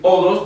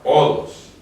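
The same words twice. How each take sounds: First: The word begins directly with the vowel. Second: The word begins with a breathy, guttural sound. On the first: "En vez de decir odos" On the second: "le cambia la pronunciación a la palabra... lo hace más gutural"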